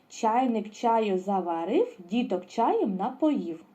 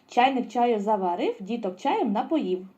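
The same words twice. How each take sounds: First: The rhyme is said at a moderate pace. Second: The rhyme is said at a fast pace. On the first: "А тепер повністю" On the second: "А тепер швидше"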